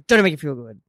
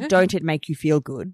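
First: The phrase is said quickly, words run together. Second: The phrase is said slowly, word by word. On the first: The speaker calls it right. "And you have to say it that fast" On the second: The speaker calls it wrong. "Can't say"

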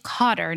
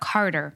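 First: The first syllable sounds like cot. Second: The first syllable sounds like car. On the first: The speaker calls it right. "it's Cotter" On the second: The speaker calls it wrong. "not Carter"

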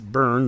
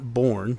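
First: The syllable sounds like 'burn'. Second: The syllable sounds like 'born'. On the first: The speaker calls it right. "it's Byrne" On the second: The speaker calls it wrong. "not Born"

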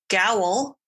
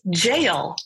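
First: The word starts with a hard g sound. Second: The word starts with a j sound. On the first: The speaker calls it wrong. "I had mispronounced gowl" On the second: The speaker calls it right. "it is actually pronounced as jail"

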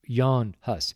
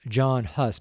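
First: The first name is said like Jan. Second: The first name is said like John. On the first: This is the actual form of the name. The speaker calls it right. "but it's actually Jan Hus" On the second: This is how others commonly say it. The speaker calls it wrong. "they pronounce it John Hus"

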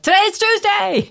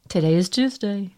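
First: It is spoken in a loud voice. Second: It is spoken in a normal voice.

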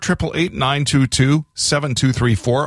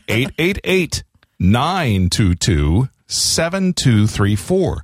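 First: The number is said at normal speed. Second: The number is said slowly, in chunks.

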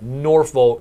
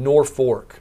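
First: The second syllable sounds like 'folk'. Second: The second syllable sounds like 'fork'. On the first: This is the official name of the town. "There's a town close by called Norfolk" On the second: This is how the local people say the name. "everyone there insists on calling Norfork"

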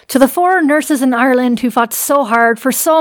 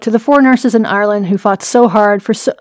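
First: It is read in an Irish accent. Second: It is read in the speaker's ordinary accent.

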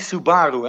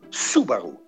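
First: The stress is not on the first syllable. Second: The stress is on the first syllable. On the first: The speaker calls it wrong. "het is geen Subaru" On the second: The speaker calls it right. "Met de nadruk op Su"

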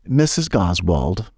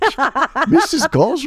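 First: It is said in the speaker's ordinary voice. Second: It is said in a put-on character voice. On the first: "And I say" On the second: "I'm hearing it completely in the voice of Thatch"

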